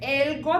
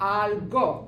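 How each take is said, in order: First: The first vowel sounds like 'eh'. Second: The first vowel sounds like 'ah'. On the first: The speaker calls it wrong. "എൽഗോ എന്നല്ല സ്റ്റാർട്ട് ചെയ്യണ" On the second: The speaker calls it right. "Start ചെയ്യണത് എ ആണ്"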